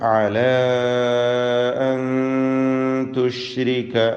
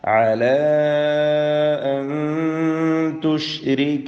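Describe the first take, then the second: First: The vowel of the first word is kept short. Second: The vowel of the first word is held long. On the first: "ദീർഘം ഒഴിവാക്കി ഖസ്റോടുകൂടി" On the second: "നാലോ അഞ്ചോ ഹറക്കത്തിന്റെ അളവിൽ അലിഫിനെ ദീർഘിപ്പിക്കൽ"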